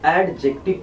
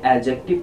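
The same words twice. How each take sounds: First: The d sound is clearly pronounced. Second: The d sound is left silent. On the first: The speaker calls it wrong. "आप में से कई लोग इसे एडजेक्टिव पढ़ते होंगे" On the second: The speaker calls it right. "इसमें डी silent रहता है और इसे एडजेक्टिव पढ़ा जाता है"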